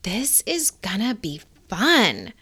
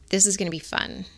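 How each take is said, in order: First: The sentence is read in a slow, heartfelt way. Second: The sentence is read in a flat, mechanical way. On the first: The speaker feels what the words say. The speaker calls it right. "You want to read it like" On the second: The words are only being recited. The speaker calls it wrong. "Don't just read"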